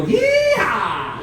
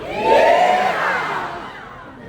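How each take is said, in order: First: High whooping cowboy yell; yeehaw shout. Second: High, drawn-out whoop; long yeehaw cheer. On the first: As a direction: whoop it out for the crowd. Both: Shown as a demonstration. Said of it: "I need every single one of you to go".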